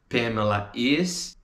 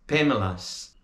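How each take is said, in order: First: Said in the usual way. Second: Pamela's as one squeezed word; contracted. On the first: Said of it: "Pamela is mad at me". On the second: Shown as a demonstration. Teacher showing the contraction Pamela's. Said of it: "essas contrações".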